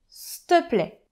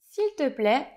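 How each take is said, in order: First: The phrase is shortened to 's'te plaît'. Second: The phrase is said in full with 'il'. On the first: "se transforme en s'te plaît" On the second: "S'il te plaît se transforme en"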